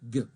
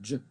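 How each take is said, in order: First: It begins with a hard g sound. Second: It begins with a soft j sound. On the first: The speaker calls it right. "we pronounce it G" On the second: The speaker calls it wrong. "notice we're not pronouncing it J"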